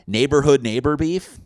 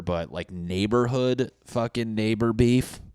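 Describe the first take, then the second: First: Big, loud, high hype on "neighborhood neighbor beef"; hyped catchphrase. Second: Said in the usual way. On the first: Shown as a demonstration. Comic repeats "neighborhood neighbor beef" as a loud hype shout.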